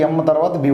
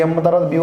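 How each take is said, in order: Both takes have the same delivery.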